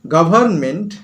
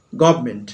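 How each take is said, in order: First: Said in the usual way. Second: "গভর্নমেন্ট" said fast as gobment, the r and n dropped; quick slurred. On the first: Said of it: "আমি তাড়াতাড়ি বলছি গভর্নমেন্ট". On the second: Shown as a demonstration. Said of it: "কিন্তু আমি বলছি গভর্নমেন্ট". ("গভর্নমেন্ট" দ্রুত গবমেন্ট উচ্চারণ)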